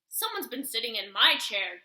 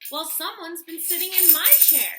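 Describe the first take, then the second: First: It is said in a huge, deep growl. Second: It is said in a medium-sized growl.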